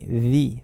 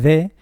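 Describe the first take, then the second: First: The vowel is an ee sound. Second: The vowel is a short uh sound. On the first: A word starting with a vowel follows. "o bien con i" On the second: No vowel follows. "O bien de"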